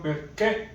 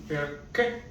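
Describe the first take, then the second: First: Perché said with the weight on per instead of ché; wrong stress demo. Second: Perché with the voice rising onto the final ché; correct Italian stress. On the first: Teacher showing learners the wrong way to stress perché, weight on per. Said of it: "and not perché". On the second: Teacher modelling the right stress of perché for learners, rising onto ché. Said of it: "this time the accent goes from down to top". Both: Shown as a demonstration.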